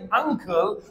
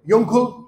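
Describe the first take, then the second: First: The word begins with a plain vowel sound. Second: The word begins with a y sound. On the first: The speaker calls it right. "यहां यू की आवाज आएगी" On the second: The speaker calls it wrong. "कोई बोलता है? नहीं बोलता है"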